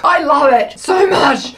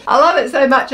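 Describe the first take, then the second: First: Slow, growly mock monster voice; a playful monster gushing over the cupcake. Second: Said in the usual way. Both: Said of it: "I'm using my monster voice".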